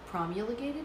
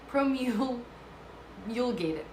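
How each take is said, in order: First: The first syllable sounds like 'prom'. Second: The first syllable sounds like 'pro'. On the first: "No, that's not right. It's not prom" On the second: "I'm going to say it like that"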